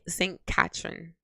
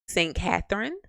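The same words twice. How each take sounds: First: Said in a Jamaican accent with a 't' sound. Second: Said in an American accent with a 'th' sound. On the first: "She said Saint Catherine" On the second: "in my very much Yankee accent will say Saint Catherine because I pronounced that T H in there"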